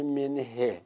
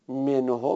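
First: منه ending in "e", "men-he"; hypothetical kasra ending. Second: منهو ending in a rounded "o", "menho"; damma on the pronoun. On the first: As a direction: end منه on a kasra, not "o". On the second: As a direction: end منهو on a damma vowel. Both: Shown as a demonstration.

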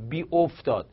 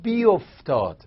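First: بی افتاد said apart as bi oftad; wrong split form. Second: بی افتاد run together as biftad; correct blended form. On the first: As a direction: say بی افتاد as two separate words. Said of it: "ما که تا حالا نشنیدیم". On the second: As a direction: say بی افتاد fused into one word. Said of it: "پس این درسته". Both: Shown as a demonstration.

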